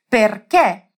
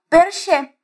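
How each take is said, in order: First: The ch is said as a k sound. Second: The ch is said as a sh sound. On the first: The speaker calls it right. "então você vai falar certinho. Vamos repetir?" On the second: The speaker calls it wrong. "elas diriam perché. Mas agora você já sabe que não é assim"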